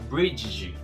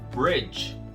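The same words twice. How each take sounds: First: The D is sounded out as a separate sound. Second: The word is said in one go, D blended. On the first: The speaker calls it wrong. "Não é bridge" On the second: The speaker calls it right. "é bridge. Fala tudo de uma vez só"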